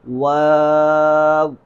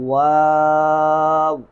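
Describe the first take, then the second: First: It has a long aa vowel, sounding like waaw. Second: The same.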